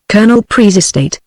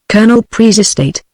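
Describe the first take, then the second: First: Colonel Pree's estate, each word weighted with mock drama; lightly hammed-up emphasis on Colonel; mock dramatic emphasis. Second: Said in the usual way. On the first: A narrator's reading. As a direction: repeat it like an actress mocking the hope. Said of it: "emphasizing her words with appropriate dramatic gestures".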